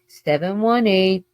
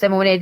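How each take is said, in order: First: The digits are spoken slowly and clearly. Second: The digits are rushed together quickly. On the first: The speaker calls it right. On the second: The speaker calls it wrong.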